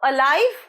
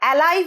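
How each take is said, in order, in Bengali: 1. প্রথম স্বরধ্বনিটা একটা ছোট 'uh' উচ্চারণ। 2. প্রথম স্বরধ্বনিটা 'cat'-এর 'a'-র মতো শোনায়। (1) "অ হয়" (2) "বলবে না, এটার প্রোনাউন্সিয়েশন কিন্তু এ হয় না"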